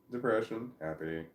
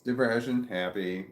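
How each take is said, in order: First: Said in the usual way. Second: Contrast demo. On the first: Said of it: "It doesn't make any difference". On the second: Shown as a demonstration. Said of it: "It makes all the difference".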